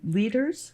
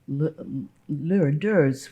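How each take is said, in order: First: The surname is pronounced like English 'leaders'. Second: The surname is given a German pronunciation. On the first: This is how the family itself says the name. "you people say leaders?" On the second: This is the original pronunciation of the name. "which is German, and I can't help pronouncing it like that"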